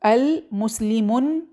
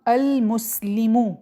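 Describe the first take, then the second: First: The word ends with an added n sound. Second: The word ends on a short u vowel. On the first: The speaker calls it wrong. "अल मुस्लिमुन कहना गलत है" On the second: The speaker calls it right. "तो हम अल मुस्लिमु कहेंगे"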